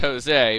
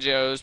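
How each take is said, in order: First: The name is said with Spanish sounds, ho-SEH. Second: The name sounds like the English word 'Joe's'. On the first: This is how the name is said in Spanish. "in Spanish it'd be pronounced Jose" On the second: The missing accent mark is read literally. "I call him Joe's because he's missing an accent"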